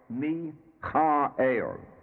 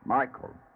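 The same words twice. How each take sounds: First: The name is pronounced the Hebrew way. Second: The name is pronounced the familiar English way. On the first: "here in Hebrew it is pronounced as Michael" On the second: "the commonly used name Michael"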